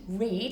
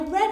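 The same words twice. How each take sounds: First: The vowel is long, rhyming with 'need'. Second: The vowel is short, rhyming with 'bed'. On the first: It is the present tense. "this word can say er, eed, read, like read a book" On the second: It is the past tense. "it can say er, ed, I read a book"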